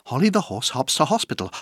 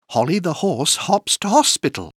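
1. La phrase est dite à un rythme très rapide. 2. La phrase est dite à un rythme rapide. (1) "Encore plus vite" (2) "plus vite"

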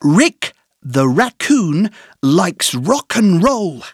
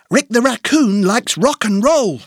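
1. Elle est dite lentement, avec des pauses entre les groupes de mots. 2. Elle est dite plus vite, sans pauses entre les groupes de mots.

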